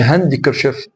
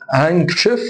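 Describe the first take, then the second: First: "هاندكرشيف" as "han-di-ker-chif" with full D; sounded D. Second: "هانكشيف" as "hang-ker-chif", no D; silent D. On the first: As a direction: pronounce the D in "هاندكرشيف". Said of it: "ما اقولش". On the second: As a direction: drop the D from "هانكشيف". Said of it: "ما اقولش هاندكرشيف". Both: Shown as a demonstration.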